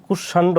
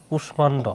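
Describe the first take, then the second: First: কুষাণ্ড without the m, kush-shando; Bengali-rule pronunciation. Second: কুষ্মাণ্ড with a clear m sound, kush-mando; Sanskrit pronunciation. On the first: Teacher contrasts the expected Bengali reading, m silent. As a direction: drop the m in কুষাণ্ড, Bengali style. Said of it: "কুষাণ্ড হওয়ার কথা ছিল". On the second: Teacher shows students the Sanskrit way, m voiced clearly. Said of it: "সংস্কৃত নিয়ম অনুসারে হবে". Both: Shown as a demonstration.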